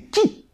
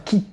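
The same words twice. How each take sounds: First: The word is said strongly, with force. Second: The word is said weakly, without force. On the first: The speaker calls it right. "on en voit de la puissance" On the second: The speaker calls it wrong. "C'est pas qui"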